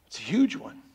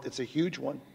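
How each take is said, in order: First: "huge" stressed with a rising tune; rising emphasis. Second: "huge" stressed, falling, much softer; falling emphasis. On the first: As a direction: lift "huge" upward. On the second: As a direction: settle "huge" down quietly. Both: Acted. Repeated for emphasis.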